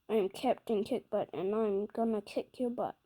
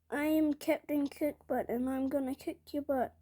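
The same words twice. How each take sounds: First: The voice is low and strongly gravelly. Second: The voice is higher, with little gravel.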